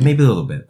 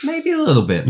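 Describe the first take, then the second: First: Said in the usual way. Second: Line delivered much higher; high, playful. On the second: Shown as a demonstration. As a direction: lift "Maybe a little bit" up high and teasing.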